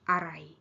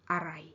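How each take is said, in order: Both takes have the same delivery.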